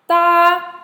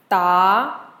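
First: The pitch stays high and level. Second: The pitch rises from middle to high.

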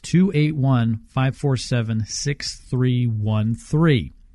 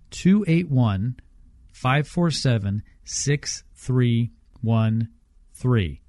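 First: The number is said at normal speed. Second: The number is said slowly.

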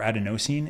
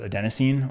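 First: It uses the British pronunciation. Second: It uses a non-British pronunciation.

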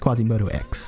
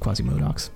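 First: The X is said as a separate letter. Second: The X is blended into the name's end. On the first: The speaker calls it right. "he prefers it when you say Quasimodo X" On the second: The speaker calls it wrong. "I've been like saying it wrong forever"

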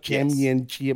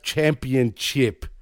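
First: The first P sound is dropped. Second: The first P sound is clearly pronounced. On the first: The speaker calls it wrong. "not championship" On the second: The speaker calls it right. "it's pronounced championship"

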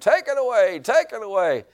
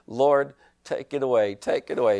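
First: It is said very loudly, as a scream. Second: It is said at a praying, normal loudness.

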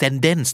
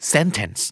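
First: The middle t sounds like a quick d. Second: The middle t is not turned into d. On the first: The speaker calls it wrong. "ก็ไม่" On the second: The speaker calls it right. "นะครับ"

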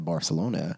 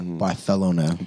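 First: The name is said with an English pronunciation. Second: The name is said with a Spanish pronunciation. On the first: The speaker calls it wrong. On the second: The speaker calls it right.

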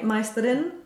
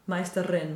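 First: The R is a single quick flip. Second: The R is a long trilled roll. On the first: The speaker calls it wrong. "Then we really need a flip, right?" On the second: The speaker calls it right. "like you're saying, roll it"

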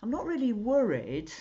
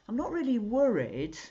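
First: The stress falls on the word worried. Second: The stress falls on the word worried.

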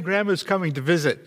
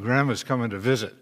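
First: The phrase sounds happy and excited. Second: The phrase sounds reluctant and dismayed. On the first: The visit is welcome news. "maybe the grandkids go, yay" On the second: The visit is unwelcome news. "somebody else in the household who goes, oh"

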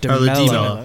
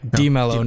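First: The stress is on a later syllable. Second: The stress is on the first syllable. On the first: The speaker calls it wrong. "not Dimello" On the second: The speaker calls it right. "That accent means the emphasis is on the I"

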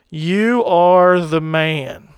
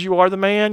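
First: It sounds like a grave accusation. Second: It sounds like cheerful, high-five praise.

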